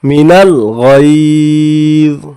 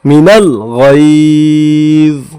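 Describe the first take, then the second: First: The phrase ends on z, vowel dropped. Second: The same.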